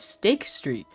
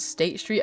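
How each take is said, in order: First: The first word ends with a k sound. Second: The first word ends with a t sound.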